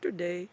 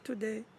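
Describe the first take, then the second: First: The word is said on a low pitch. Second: The word is said on a middle pitch. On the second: "or middle"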